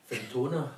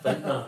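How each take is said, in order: First: The name has three full syllables. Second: The middle syllable is dropped, two syllables. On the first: This is how it is said in Scotland. "We would pronounce it in Scotland" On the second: This is what it is called locally. "but Fintna, I think it's called"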